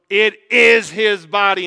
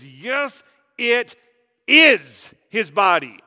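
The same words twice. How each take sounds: First: Loud, slow, firm declaration; Luther declaring. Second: Louder, slow, hammering "is"; Luther insisting. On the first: Luther declaring to Zwingli, loud and slow. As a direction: insist on every word like Luther. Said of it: "And Luther goes". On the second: Luther stabbing the table at Zwingli, stressing "is". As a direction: stab the word "is" like a knife into the table. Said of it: "stabs the table". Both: Retold or imitated.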